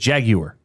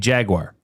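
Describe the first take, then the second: First: It is said in an Irish accent. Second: It is said in a Canadian accent. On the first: This shows a relative's Northern Irish roots. "He says" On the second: This is the everyday local way of saying it. "like you and I would say"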